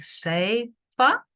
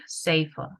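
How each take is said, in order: First: SAFER drawn out in two parts, rising like a question; halting attempt at SAFER. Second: Said in the usual way. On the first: Shown as a demonstration. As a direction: struggle through "safer", slow and unsure. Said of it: "Just give it a go". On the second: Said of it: "even if you can pronounce it".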